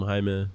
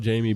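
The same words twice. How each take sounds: First: "Jaime" said the Spanish way, HI-meh; Spanish pronunciation. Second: "Jamie" said the English way, JAY-mee; English pronunciation. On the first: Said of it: "his mom's always called him Jaime". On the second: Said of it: "It's spelled Jamie". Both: Shown as a demonstration.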